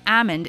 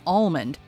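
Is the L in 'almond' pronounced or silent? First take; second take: silent; pronounced. First: The L in the word is silent. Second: The L in the word is pronounced.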